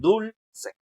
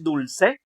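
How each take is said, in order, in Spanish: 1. El acento está en la primera sílaba. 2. El acento está en la última sílaba. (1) "o será la penúltima?" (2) "¿Será la última"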